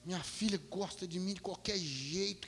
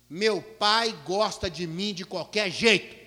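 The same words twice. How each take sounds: First: Softer, slow and wondering; moved reflection. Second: Put-on slow, deliberate little girl's certainty; child's calm retort. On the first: Real, not acted. Father walking out amazed at his daughter's words, soft and wondering. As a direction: murmur it to yourself, touched. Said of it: "que coisa". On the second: Little daughter tells the teacher her father loves her anyway, slow and sure.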